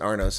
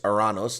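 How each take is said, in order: First: The name is said with two syllables. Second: The name is said with three syllables. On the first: This is how people actually say it. "they pronounce it Arnos" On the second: This is the name's actual form. "it's Aranos"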